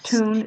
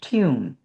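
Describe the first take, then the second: First: It is said without a y sound before the vowel. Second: It is said with a y sound before the vowel. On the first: The speaker calls it wrong. "It's not tune" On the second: The speaker calls it right. "it's tune"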